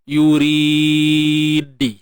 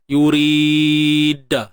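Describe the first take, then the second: First: The final d is followed by an i vowel. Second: The final d is followed by an a vowel. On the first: "ataupun baris bawah" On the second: "Baris atas contohnya"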